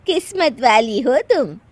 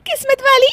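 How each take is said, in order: First: Slow, slightly higher gracious praise; admiring compliment. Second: Very high, loud giggly question; laughing echo. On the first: Aunt praising friend's daughter-in-law, admiring. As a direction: tell her kindly and slowly. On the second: Daughter-in-law echoing aunt's compliment, cracking up. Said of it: "हंस क्यों रही हो?". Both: Acted.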